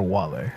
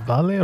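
First: "Wale" said with a W sound at the start; W pronunciation. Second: "Vale" said with an English V sound at the start; V pronunciation. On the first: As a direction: round the lips into a W to open "Wale". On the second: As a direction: start "Vale" on a buzzed V, not a W. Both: Shown as a demonstration. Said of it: "V's are pronounced like W's".

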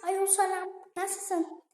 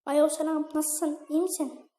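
First: Put-on high falsetto girly greeting; girl voice. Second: Put-on lightly raised girly voice; a hint of a girl's voice. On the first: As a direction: fake a girl on the phone. (kız sesiyle selam) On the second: (hafif kız sesi) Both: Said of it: "Kız sesi yapacağım".

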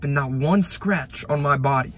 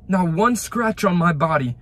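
First: Said in the usual way. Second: "Not one scratch on my body" said higher and louder, stress on "one"; emphatic repeat. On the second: Shown as a demonstration. Telling viewers about surviving the crash, stress on "one". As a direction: hammer "one" home the second time.

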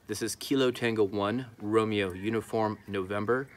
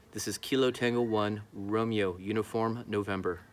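No difference in how they are said.

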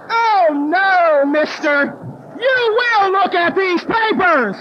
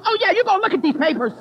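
First: Loud, slow, drawn-out scolding; indignant. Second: Higher-pitched, mildly indignant insistence; indignant sponsee. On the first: Woman confronts border officer over her papers, indignant. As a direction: lay down the law, indignantly. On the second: Sponsee backs her up at the border, indignant. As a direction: chime in with mock indignation. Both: Retold or imitated. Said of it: "I even had my little sponsee indignant".

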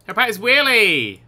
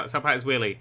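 First: Louder shout, stretching WHEELIE; gleeful call to action; excited cheer. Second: Said in the usual way. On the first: Real, not acted. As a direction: cheer on the stunt. Same words as cheer.

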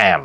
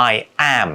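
First: "am" blended into I'm; contracted I'm. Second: Said in the usual way. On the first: Shown as a demonstration. Teacher demoing the contraction I'm. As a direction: run "I am" together as "I'm". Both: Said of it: "กลายเป็น am".

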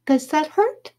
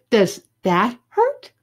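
First: High, tender little question; put-on girly concern; fawning girl. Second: "that" stretched and punched louder; slow, emphatic "that"; pressing question. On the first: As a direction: ask it in a high girlish voice. Judy touches lightly, then presses. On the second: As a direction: lean slowly on "that", rising on "hurt". Second time, pressing harder. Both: A narrator's reading.

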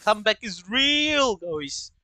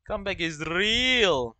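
First: Hyped. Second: Said in the usual way. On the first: Real, not acted. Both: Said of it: "Let's do a comeback".

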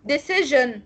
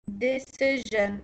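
First: Said in the usual way. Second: Decision drawn out slowly, soft ge sound in the middle; slow careful decision. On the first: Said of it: "الكلمة اللي بعدها". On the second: Shown as a demonstration. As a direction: stretch decision to show the sound. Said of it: "اه فعلا". (decision بنطق بطيء وواضح للـ جا)

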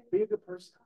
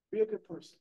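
First: "Be a good person" flung up high in pitch; sudden high-pitched emphasis; emphatic high exclamation. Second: Said in the usual way. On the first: Shown as a demonstration. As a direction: pitch it up high like a rallying cry. Repeats the lesson's key point.

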